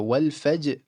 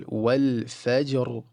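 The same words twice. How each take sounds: First: Every letter of wal faj kept light; empty-mouth wal fajr. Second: Light wal faj, heavy final ra; full ra in wal fajr. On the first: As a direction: wal fajr flat, cut before the ra. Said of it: "all empty". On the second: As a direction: fill the mouth only on fajr's ra. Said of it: "the ra is going to be full". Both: Shown as a demonstration.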